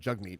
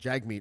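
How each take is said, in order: First: The first vowel sounds like the one in 'cup'. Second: The first vowel sounds like the one in 'cat'. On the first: The speaker calls it right. "instead of Jugmeat" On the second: The speaker calls it wrong. "I'm guilty of accidentally pronouncing it Jagmeat"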